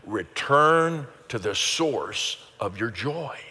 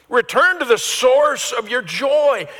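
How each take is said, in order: First: Slow and deliberate, every word spaced out; slow group recitation. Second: Shouted proclamation. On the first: Pastor guiding the church to repeat together, slowly. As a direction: lead the congregation through it word by word. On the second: Pastor thundering the phrase back to his congregation, high and loud. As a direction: Return to the source of your joy, cried out high and loud and slow. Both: Shown as a demonstration. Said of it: "So say that with me".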